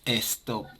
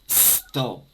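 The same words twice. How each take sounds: First: An extra 'e' vowel comes before the s. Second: The word starts directly with the s sound. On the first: The speaker calls it wrong. "no es stop" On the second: The speaker calls it right. "es stop"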